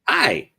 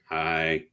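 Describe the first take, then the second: First: The greeting sounds warm and cheerful. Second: The greeting sounds flat and gloomy.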